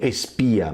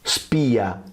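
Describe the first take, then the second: First: An extra e vowel comes before the s. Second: The word begins directly with the s sound. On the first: The speaker calls it wrong. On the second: The speaker calls it right.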